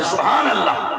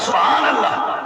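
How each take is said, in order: First: Said in the usual way. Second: "سبحان اللہ" exclaimed with a lift of joy; a joyful "سبحان اللہ" with an upward lift; happy exclamation. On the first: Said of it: "عربی میں کہا جاتا ہے". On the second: Shown as a demonstration. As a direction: say "سبحان اللہ" delighted, rising at the end. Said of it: "خوش ہو کے بندہ کہتا ہے".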